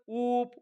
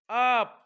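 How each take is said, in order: First: The vowel sounds like 'oo'. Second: The vowel sounds like 'uh'. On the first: The speaker calls it wrong. "आपण असं म्हणतो का" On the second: The speaker calls it right. "नाही"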